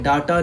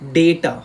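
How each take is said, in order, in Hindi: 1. पहला स्वर लंबी 'ah' ध्वनि है। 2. पहला स्वर 'ay' ध्वनि है। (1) "डाटा नहीं बोलेंगे हम लोग" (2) "डेटा बोला जाता है"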